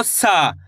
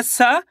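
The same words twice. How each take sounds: First: "सा" with a long held aa; slow, lengthened "सा"; drawn-out vowel. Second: Said in the usual way. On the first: Shown as a demonstration. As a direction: stretch the aa in "सा" and let it fall. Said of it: "आ की मात्रा लगी तो". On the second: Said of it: "इसको simple पढ़ रहे".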